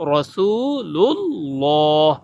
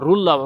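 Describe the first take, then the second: First: An L sound comes before 'ullah'. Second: An R sound comes before 'ullah'. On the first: The speaker calls it right. "লাম দিয়ে হবে" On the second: The speaker calls it wrong. "রুল্লাহ র দিয়ে বলে, র দিয়ে হবে না"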